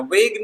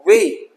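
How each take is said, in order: First: वेग said with a hard g at the end; wrong gh sounded. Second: वे said plainly as way, no g; silent gh. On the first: Teacher warning students, gh wrongly spoken. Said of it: "वेग नहीं". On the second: Teacher giving students the correct word, gh silent. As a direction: end वे on the vowel. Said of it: "जीएच silent है". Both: Shown as a demonstration.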